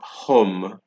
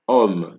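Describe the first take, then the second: First: The word begins with an audible H sound. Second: The word begins directly with the vowel. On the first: The speaker calls it wrong. "Note that it's not hum" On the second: The speaker calls it right. "it is um, because you're only pronouncing from the O"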